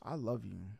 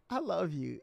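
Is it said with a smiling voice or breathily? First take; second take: breathily; smiling. First: It is said breathily, with a sigh. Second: It is said with a fake, smiling voice.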